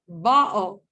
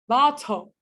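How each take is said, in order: First: The t is replaced by a glottal stop. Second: The t is a clear, crisp t sound. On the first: "That's Cockney English" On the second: "That's U K English"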